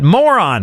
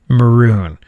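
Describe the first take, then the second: First: It sounds like the word moron. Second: It sounds like the color maroon. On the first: The speaker calls it wrong. "I didn't know how to pronounce maroon" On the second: The speaker calls it right. "What you actually mean is maroon"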